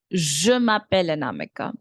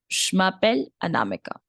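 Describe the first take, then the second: First: Je m'appelle Anamika with a full "Je"; full beginner version. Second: Je m'appelle Anamika starting "shmappelle"; quick, with Je cut down to "sh"; fluent contracted version. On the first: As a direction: sound the vowel in Je before m'appelle, lower pitched. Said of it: "But to begin with, you can say". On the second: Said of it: "this is how you will speak once you're very fluent". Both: Shown as a demonstration.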